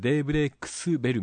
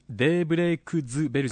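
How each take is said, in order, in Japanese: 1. 'bell'の前は無声の『s』の音だ。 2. 'bell'の前は有声の『z』の音だ。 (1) "デイブレイクスベルみたいです" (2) "デイブレイクズベルじゃなくて"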